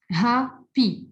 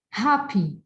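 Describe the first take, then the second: First: "Happy" split as "hap", pause, "py"; divided into syllables. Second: Said in the usual way. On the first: Shown as a demonstration. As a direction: say "Happy" in two separate, stressed beats. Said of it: "divide these words into two syllables". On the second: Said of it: "I can divide these words".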